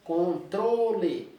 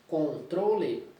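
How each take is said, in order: First: Controle slow, with tro hit hard; stress on tro. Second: Said in the usual way. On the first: Shown as a demonstration. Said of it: "É tro". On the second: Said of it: "Na sílaba poética".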